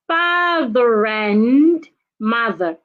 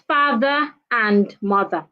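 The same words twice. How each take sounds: First: The r sound runs straight into the next word. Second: The two words are said separately without linking. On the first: The speaker calls it right. "So I need to link them" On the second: The speaker calls it wrong.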